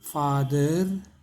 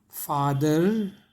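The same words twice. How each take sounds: Both takes have the same delivery.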